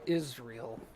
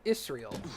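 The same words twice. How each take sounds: First: The middle consonant sounds like a z. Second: The middle consonant sounds like an s. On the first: "instead of Israel" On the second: "So Israel instead of"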